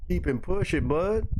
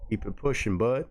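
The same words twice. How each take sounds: First: Higher-pitched put-on animal voice; mock animal dialogue. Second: Said in the usual way. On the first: Narrator voices an animal brushing off another, in a high put-on voice. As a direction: repeat the brush-off in a high cartoonish voice.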